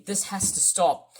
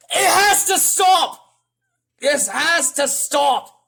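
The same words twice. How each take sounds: First: Said in the usual way. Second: High, loud, slow protest; shouting like another YouTuber. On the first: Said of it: "it just shouts out to me". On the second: Retold or imitated. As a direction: punch out each word in a yell. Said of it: "I'm sounding like another guy, uh, another YouTuber".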